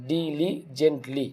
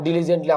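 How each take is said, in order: First: ডিলিজেন্টলি very slow, in four separate parts; split into syllables. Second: Said in the usual way. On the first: Shown as a demonstration. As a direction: break ডিলিজেন্টলি into four drawn-out syllables, softly. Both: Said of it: "এখানে কিন্তু চারটা part আছে".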